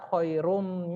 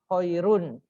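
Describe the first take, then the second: First: The final n sound is merged into an m. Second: The final n sound is kept clearly. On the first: The speaker calls it right. "Jadi bacaan yang benar itu adalah" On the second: The speaker calls it wrong. "Ini jangan dibaca khairun, jangan ya"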